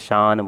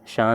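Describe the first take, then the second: First: The word ends with a clearly pronounced n sound. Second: The word ends in a nasalized vowel without n. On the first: The speaker calls it right. "बल्कि शान बोल रहे हैं, ... clear नून सुनाई दे" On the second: The speaker calls it wrong. "शान नहीं बोल रहे हैं"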